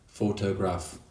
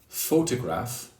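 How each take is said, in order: First: All syllables get the same equal stress. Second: One syllable is stressed more than the others. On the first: The speaker calls it wrong. "some Myanmar learners might say photograph" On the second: The speaker calls it right. "instead of saying photograph"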